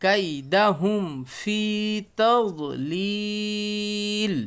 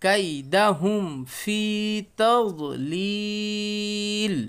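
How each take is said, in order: First: কাইদাহুম ফি তাদলিল read slowly with লিল joined and held long; teacher showing how the words join. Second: কাইদাহুম ফি তাদলিল read slowly with লিল joined and held long; teacher repeating the joined reading. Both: Shown as a demonstration. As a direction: stretch তাদলিল, sounding the লাম joined to the one before. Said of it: "তাহলে কেমন হলো?".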